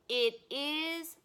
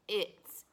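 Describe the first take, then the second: First: It is said as two full words. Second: It is contracted into one syllable. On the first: "So you can say it is or it's" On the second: "So you can say it is or it's"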